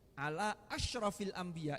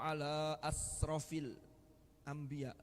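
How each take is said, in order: First: The word is said with an sh sound. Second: The word is said with a plain s sound. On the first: The speaker calls it right. "Mestinya shin" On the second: The speaker calls it wrong. "Lu kan parah ini"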